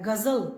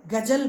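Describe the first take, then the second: First: गज़ल with a clear z sound, nukta sounded; correct nukta z. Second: गज़ल said as gajal, j instead of z; without the nukta. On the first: Teacher models गज़ल for students with a clear z. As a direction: say गज़ल as ghazal with z, teacher demonstrating. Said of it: "एक शब्द है गज़ल". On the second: Teacher shows students the wrong gajal, with j instead of z. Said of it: "नुक्ता के बिना बोले". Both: Shown as a demonstration.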